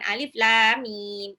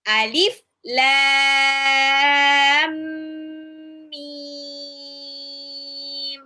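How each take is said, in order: First: The lam and mim are said short. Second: The lam and mim are held long. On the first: The speaker calls it wrong. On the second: The speaker calls it right. "harus enam harokat, harus panjang"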